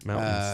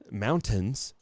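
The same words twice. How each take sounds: First: The middle T sound is dropped. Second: The middle T sound is clearly pronounced. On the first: The speaker is from the area. "no T" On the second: The speaker is not from the area. "don't say"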